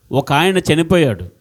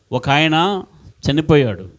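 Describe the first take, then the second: First: Said in the usual way. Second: ఒక ఆయన, a long pause, then చనిపోయాడు; dramatic pause. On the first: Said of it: "ఒక ఆయన / చనిపోయాడు (repeated with pauses)". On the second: Shown as a demonstration. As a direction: hold the silence after ఒక ఆయన before చనిపోయాడు. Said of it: "నాకు అది చూస్తూ వినండి". (ఒక ఆయన తర్వాత నాటకీయ విరామం, తరువాత చనిపోయాడు)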